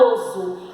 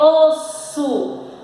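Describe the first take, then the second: First: The middle consonant is a buzzing Z sound. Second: The middle consonant is a hissing S sound. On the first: The speaker calls it wrong. "Se a tia tirar o S, vai ficar oso" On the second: The speaker calls it right. "a palavra não é oso, é osso"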